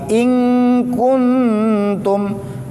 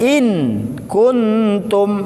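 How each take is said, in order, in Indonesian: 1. Bunyi n kabur menjadi ng yang sengau. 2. Bunyi n diucapkan sebagai n yang jelas. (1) "jadi ke eng dia" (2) "nggak boleh"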